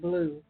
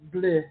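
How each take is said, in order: First: It sounds like the English word blue. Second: It is said with a French pronunciation. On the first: The speaker calls it wrong. "It ain't blue" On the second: The speaker calls it right. "it's bleu ... It's French"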